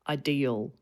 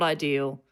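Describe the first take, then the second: First: It has the New South Wales accent. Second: It is said in a flatter way.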